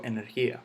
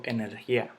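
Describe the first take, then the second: First: Said in the usual way. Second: "energía" stressed on the last A, e-ner-GIÁ; mis-stressed "energía" as energiÁ; wrong final stress. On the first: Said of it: "yo digo". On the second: Shown as a demonstration. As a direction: push the stress to the end of "energía". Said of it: "yo no digo".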